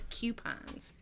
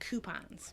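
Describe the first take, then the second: First: It is said in a Long Island accent. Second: It is said in a standard accent.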